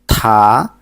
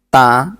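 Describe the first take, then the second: First: The consonant comes with a strong puff of air. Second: The consonant comes with no puff of air. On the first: "kalau yang tiet itu ta" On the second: "udaranya kita hilangkan dari ta, ta itu di sang diget"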